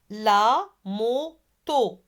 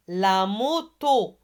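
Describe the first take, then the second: First: LA MOTO slowly, split la, mo, to; three spaced beats on "La moto"; syllable by syllable. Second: Said in the usual way. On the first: Shown as a demonstration. Teacher models La moto for pupils, slowly syllable by syllable. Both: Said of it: "Allez, répétez".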